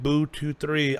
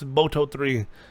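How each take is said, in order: First: The first syllable sounds like 'boo'. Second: The first syllable sounds like 'boh'. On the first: The speaker calls it wrong. "when I read it, I call it Boo two three. I don't think that's how it's pronounced" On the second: The speaker calls it right. "supposedly the more proper pronunciation"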